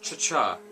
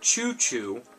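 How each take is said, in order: First: Both vowels sound like ah. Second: Both vowels sound like oo. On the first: The speaker calls it wrong. "I pronounce it cha-cha" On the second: The speaker calls it right. "it's pronounced choo-choo"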